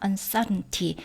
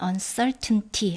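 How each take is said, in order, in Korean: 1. t 소리는 약하고 거의 들리지 않아요. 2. t 소리는 분명하고 완전하게 발음돼요. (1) "저는 이 T 발음이 잘 안 나게 발음이 되거든요" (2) "다 발음해도 되겠죠"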